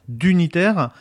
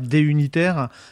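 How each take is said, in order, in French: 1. Le D se rattache à la syllabe suivante. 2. Le D se prononce comme une lettre séparée.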